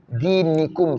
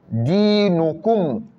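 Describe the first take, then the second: First: The middle vowel is an i sound. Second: The middle vowel is a u sound. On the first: The speaker calls it wrong. "Ils vont dire dinikum" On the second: The speaker calls it right. "C'est pas ni, mais nous"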